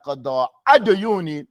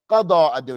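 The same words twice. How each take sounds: First: The first word ends as if the phrase stopped. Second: The two words are joined without a break. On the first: The first word stands alone. The speaker calls it wrong. "It's not قضاء ديوني" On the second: The two words form one phrase. The speaker calls it right. "It's قضاء ديوني"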